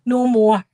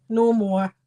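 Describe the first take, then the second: First: Loud, firm "No more" with a falling end; exasperated plea. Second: Said in the usual way. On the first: Retold or imitated. Daughter begging dad to stop the jokes, loud and firm. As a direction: put your foot down on "No more". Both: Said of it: "Dad, please".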